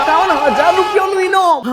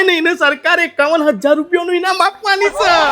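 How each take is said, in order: First: Higher, shouted disbelief at the sum; amazed disbelief. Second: Said in the usual way. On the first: Acted. Wife hearing of the prize money, shocked shout. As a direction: blurt the amount back in shock.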